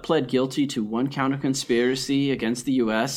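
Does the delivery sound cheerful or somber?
somber. The delivery sounds subdued and somber. The speaker calls it right. "So you want me to tone it down a notch?"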